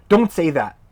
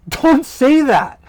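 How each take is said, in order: First: Said in the usual way. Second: High, loud, slow Don't say that, with a laugh; laughing shout. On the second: Shown as a demonstration. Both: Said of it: "best English equivalents".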